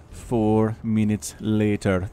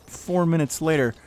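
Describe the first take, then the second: First: Slow, low, drawn-out narrator voice; SpongeBob narrator. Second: Said in the usual way. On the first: Shown as a demonstration. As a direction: draw it out like a cartoon time card. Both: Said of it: "something my kids have picked up from SpongeBob".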